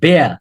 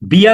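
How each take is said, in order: First: The vowel sounds like the one in 'bare'. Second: The vowel sounds like the one in 'beer'. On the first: The speaker calls it right. "এটার উচ্চারণ বেয়া" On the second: The speaker calls it wrong. "বিয়ার না"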